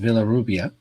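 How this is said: English sounds, with a V and untrilled R. This is the form for people who don't speak Spanish. "if you don't speak Spanish, it's Villarrubia, like it's written"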